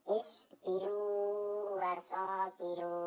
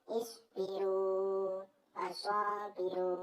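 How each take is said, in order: Both takes have the same delivery.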